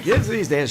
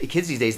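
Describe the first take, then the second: First: It is said in a normal speaking voice. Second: It is said in a small put-on voice.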